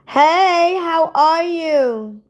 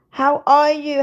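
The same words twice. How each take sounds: First: High, slow sugary hello; sweet greeting. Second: Said in the usual way. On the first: Acted. Greeting a viewer on the live, high and sugary. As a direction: coo it at her like a sweetheart.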